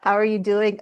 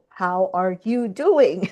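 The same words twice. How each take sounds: First: It is asked in a quick, forced, routine way. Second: It is asked with genuine, curious interest.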